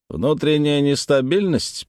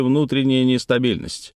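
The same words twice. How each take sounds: First: "Внутренняя нестабильность" repeated slowly, higher, as a puzzled query; questioning echo. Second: Said in the usual way. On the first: A narrator's reading. (медленно переспрашивает: «Внутренняя нестабильность?») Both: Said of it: "переспросил Дженаро".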